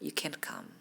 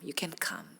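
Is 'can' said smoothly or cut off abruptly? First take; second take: abrupt; abrupt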